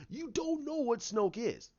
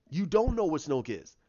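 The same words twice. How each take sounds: First: Lifted first take. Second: Said in the usual way. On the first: Shown as a demonstration.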